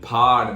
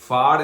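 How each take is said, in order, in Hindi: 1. पहली ध्वनि दोनों होंठों से बनती है। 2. पहली ध्वनि ऊपर के दांत और नीचे के होंठ से बनती है। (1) "देखो होंठ देखो मेरे" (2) "ऊपर वाला दांत नीचे वाला होंठ ... गलत है ये"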